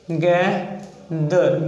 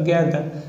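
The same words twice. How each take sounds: First: गैदर drawn out very slowly; slow demo of गैदर. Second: Said in the usual way. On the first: Shown as a demonstration. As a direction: stretch गैदर syllable by syllable. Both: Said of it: "गैदर हो गया example".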